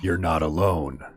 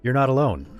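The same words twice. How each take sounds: First: It is said in a creepy, threatening tone. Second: It is said in a warm, reassuring tone. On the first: Someone is lurking in your walls. "there's someone in your walls" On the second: Someone is there to help you. "someone's there to help you"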